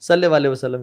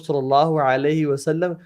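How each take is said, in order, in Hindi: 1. वाक्यांश छोटा कर दिया जाता है, अक्षर निगल लिए जाते हैं। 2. वाक्यांश का हर अक्षर पूरा बोला जाता है।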